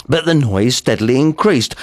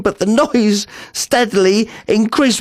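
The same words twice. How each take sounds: First: Said in the usual way. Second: Rising panic. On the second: Acted. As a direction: repeat it as dread takes hold.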